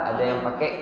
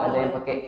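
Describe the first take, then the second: The two takes are said the same way.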